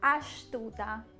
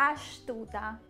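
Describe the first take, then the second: First: The s before the t sounds like sh. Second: The s before the t sounds like sh.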